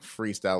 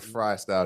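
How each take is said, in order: First: The first syllable rhymes with 'see'. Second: The first syllable rhymes with 'my'. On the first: The name plays on the word free. "are they saying it like freestyle" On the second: The name plays on the word fries. "or fry style because it's fries"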